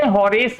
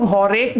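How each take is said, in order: First: होरेस, ending in an s sound; Horace with final s. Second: होरेक, ending in a hard k sound; Horace with final k. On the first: Teacher showing class the other pronunciation, होरेस ending in s. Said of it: "इसको हम लोग होरेक भी बोलते हैं". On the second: Teacher showing class one accepted pronunciation, होरेक ending in k. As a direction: say होरेक with a k at the end. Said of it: "होरेस भी कई लोग बोलते हैं". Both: Shown as a demonstration.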